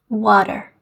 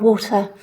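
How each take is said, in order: First: The T sounds soft, like a D. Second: The T is a clean, crisp T. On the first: "an American, however, would read these words in quite a different way" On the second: "in British English, we've got a T"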